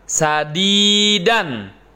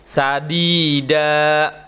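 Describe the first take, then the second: First: The word ends with an n sound. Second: The word ends with a long a vowel. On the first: The reciter continues without stopping. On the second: The reciter stops at this word.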